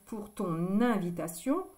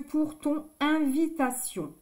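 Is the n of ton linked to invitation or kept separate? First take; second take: linked; separate. First: The n of ton links into invitation. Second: The n of ton stays separate from invitation. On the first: The speaker calls it right. "C'est plus joli de dire pour ton invitation" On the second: The speaker calls it wrong. "que pour ton invitation"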